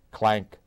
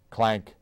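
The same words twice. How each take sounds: The two takes are said the same way.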